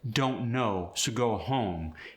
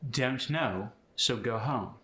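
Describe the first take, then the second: First: It is said in a plain American accent. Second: It is said in a British accent, with 'uh' before O.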